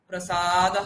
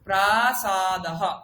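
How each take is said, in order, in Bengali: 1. প্রথম স্বরধ্বনিটি ছোট, দ্বিতীয়টি দীর্ঘ। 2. দুটো স্বরধ্বনিই সমান সময় ধরে দীর্ঘ করে উচ্চারিত হয়। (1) "প্রসাদহ নয়" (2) "প্রা এবং সা দুটো আমি শুনতে পাবো"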